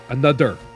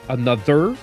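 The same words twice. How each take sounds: First: The th is replaced by a strong D sound. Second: The th has only a slight D sound. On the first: The speaker calls it wrong. "I used to be like another, another, another, like that bad" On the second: The speaker calls it right. "the medium point... it still comes out like a slight D sound"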